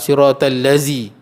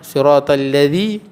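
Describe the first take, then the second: First: The last word has a buzzing z sound. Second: The last word has a soft dh sound. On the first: The speaker calls it wrong. "tak boleh tukar" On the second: The speaker calls it right. "Dia zal"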